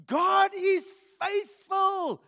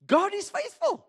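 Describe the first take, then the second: First: Slow, loud and high "God is faithful"; preached shout. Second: Said in the usual way. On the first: Real, not acted. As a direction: proclaim it with full force. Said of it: "repeated, louder and slower". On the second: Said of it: "repeats for emphasis".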